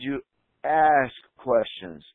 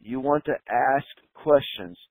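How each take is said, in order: First: "ask questions" stretched out slow with a pause before "ask"; slow, deliberate stress. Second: Said in the usual way. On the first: Shown as a demonstration. Coach drilling front desk staff, "ask" slowed and stressed. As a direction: space the words out and land hard on "ask". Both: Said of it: "That's the magic of the entire thing".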